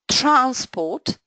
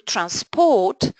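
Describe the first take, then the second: First: The stress is on the first syllable. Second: The stress is on the second syllable. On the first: It names a thing, a noun. "stress on the first syllable, would be a noun" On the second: It names an activity, a verb. "To transport would be a verb"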